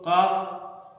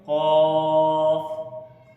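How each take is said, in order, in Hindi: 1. यह अक्षर पतला और हल्का बोला जाता है। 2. यह अक्षर भरा हुआ और भारी बोला जाता है। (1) "ऐसे नहीं" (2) "इसको हम पढ़ेंगे"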